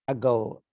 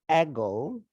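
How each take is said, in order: First: The first vowel is a short, reduced schwa. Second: The first vowel is full and long. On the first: The speaker calls it right. "we say ago, ago. It's very short uh, vowel" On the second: The speaker calls it wrong. "we don't say ago"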